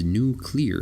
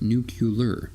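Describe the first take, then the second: First: It is said nu-clear, with no extra vowel. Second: It is said nu-cu-lar, with an extra vowel. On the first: The speaker calls it right. "that is nuclear" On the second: The speaker calls it wrong. "not nuclear"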